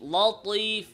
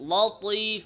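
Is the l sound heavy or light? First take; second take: heavy; heavy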